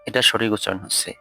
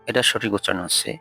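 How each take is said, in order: The two takes are said the same way.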